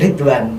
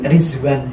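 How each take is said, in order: First: The middle consonant is a d sound. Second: The middle consonant is a z sound. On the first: This is the local form of the name. "bukan Ridwan" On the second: This is how the name is said over there. "pakai Z"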